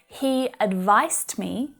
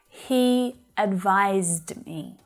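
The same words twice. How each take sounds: First: The middle consonant is an unvoiced s sound. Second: The middle consonant is a voiced z sound. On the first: The speaker calls it wrong. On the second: The speaker calls it right.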